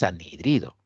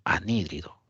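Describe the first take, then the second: First: The stress falls on the third syllable. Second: The stress falls on the second syllable. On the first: The speaker calls it wrong. "Este no es anhidrido" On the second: The speaker calls it right. "tiene tilde"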